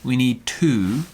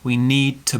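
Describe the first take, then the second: First: The word 'to' has a full, rounded vowel. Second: The word 'to' has a weak, flat vowel. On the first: The speaker calls it wrong. "rounded. We don't say that" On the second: The speaker calls it right. "My mouth is kind of flat, and this is a weak sound here"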